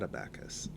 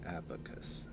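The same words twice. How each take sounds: First: Abacus said as uh-BACK-us; "abacus" mispronounced with stress on the second syllable; wrong pronunciation. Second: Abacus said softly as AB-uh-kus; "abacus" with strong first syllable, short middle vowel; corrected pronunciation. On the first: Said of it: "Not abacus". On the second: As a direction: put the stress on AB in "abacus". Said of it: "The stress is on the first syllable". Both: Shown as a demonstration.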